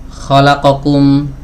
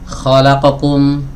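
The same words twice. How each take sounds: The two takes are said the same way.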